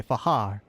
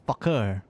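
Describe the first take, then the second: First: Fahar, K left silent. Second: Fakir with a hard, sounded K; Fakir, K fully pronounced; K not silent. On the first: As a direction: say Fahar, breathing an H where the K is written. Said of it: "'cause the K is silent". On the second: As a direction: say Fakir with a clear K in place of an H. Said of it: "the K is not silent". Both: Shown as a demonstration.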